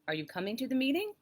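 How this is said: The voice rises at the end of meeting. It asks a real question. "the rise at the end of meeting lets them know it's a question"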